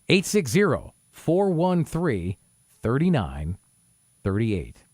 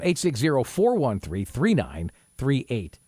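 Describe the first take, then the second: First: The number is read slowly. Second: The number is read at normal speed.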